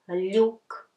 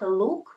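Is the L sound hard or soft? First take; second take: soft; hard. First: The L is soft, palatalized. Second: The L is hard, without palatalization. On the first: The speaker calls it right. "U makes the previous consonant soft" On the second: The speaker calls it wrong. "it's not look"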